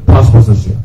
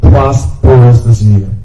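First: The phrase is said at a normal pace. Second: The phrase is said slowly and deliberately.

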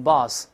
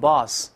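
The two takes are said the same way.

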